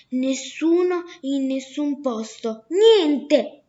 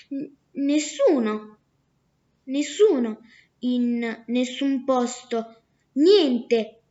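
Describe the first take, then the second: First: Slow, insistent nessuno in nessun posto, then a loud, falling shout of niente; the merchant angrily repeats the name to his neighbours; exasperated outburst. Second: The clever daughter spells out her fake name slowly; sly girl's trick name. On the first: Acted.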